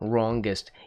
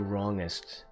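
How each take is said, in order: First: The G sound is hit hard and clearly. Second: The G sound is soft and barely heard. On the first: The speaker calls it right. "You have to hit the G on that one" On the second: The speaker calls it wrong. "You can't just say wrongest"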